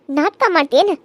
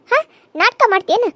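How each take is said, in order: First: Said in the usual way. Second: Slow, higher sneering repeat of ನಾಟಕ ಮಾಡ್ತೇನ; drawn-out mock of "am I acting?"; mocking echo. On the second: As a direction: throw her words back at her, mocking.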